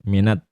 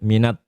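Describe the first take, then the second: The two takes are said the same way.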